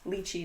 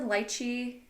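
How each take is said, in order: First: It is said the North American way. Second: It is said the way its home country says it. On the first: This is how North Americans say it. "like the American, North American" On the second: This is the proper name from the fruit's origin. "the proper term for wherever it's from"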